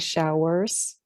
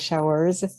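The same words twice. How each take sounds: First: The word ends with a hissing S sound. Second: The word ends with a buzzing Z sound. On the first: The speaker calls it wrong. "we don't say showers" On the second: The speaker calls it right. "putting the Z on the end"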